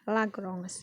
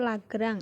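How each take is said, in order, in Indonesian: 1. Nama itu diucapkan dengan pengucapan Prancis. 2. Nama itu diucapkan dengan pengucapan Indonesia. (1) "tapi dalam Perancis sebenarnya adalah Lagrange" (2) "karena kita orang Indonesia itu Lagrange"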